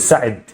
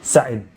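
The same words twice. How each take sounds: The two takes are said the same way.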